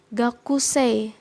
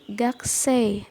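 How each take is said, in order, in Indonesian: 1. Bunyi u setelah k diucapkan dengan jelas. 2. Bunyi u setelah k dilesapkan, hampir tidak terdengar.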